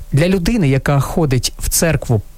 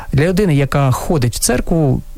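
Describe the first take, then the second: The two takes are said the same way.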